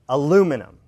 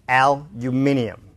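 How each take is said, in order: First: Stress falls on the second syllable only. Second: Stress falls on the first and third syllables.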